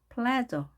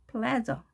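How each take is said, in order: The two takes are said the same way.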